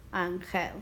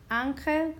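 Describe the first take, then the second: First: "ángel" as an-GEL, low and falling; stress on last syllable. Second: "Ángel" as ÁN-gel, lifted; stress on first syllable. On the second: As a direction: punch ÁN in "Ángel". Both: Shown as a demonstration. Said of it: "listen to where we hear the stress".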